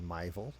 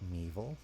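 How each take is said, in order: First: The first syllable rhymes with 'my'. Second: The first syllable rhymes with 'me'. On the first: The speaker calls it wrong. "my pronunciation of Meeville was incorrect" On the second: The speaker calls it right. "Apparently, it's Meeville"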